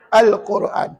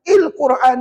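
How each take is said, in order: First: The word begins with the vowel a. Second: The word begins with the vowel i. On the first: The speaker calls it right. "Dia kena baca al Al-Quran" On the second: The speaker calls it wrong. "il Quran salah"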